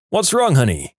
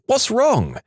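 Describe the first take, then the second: First: Mild shout on waking; higher-pitched worried call. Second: High-pitched shocked cry; mild shout, sharply raised pitch. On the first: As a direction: call out with concern, pitch raised. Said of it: "he woke up and shouted". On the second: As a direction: cry out in alarm, pitched right up. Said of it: "It shocked me and I shouted". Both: A narrator's reading.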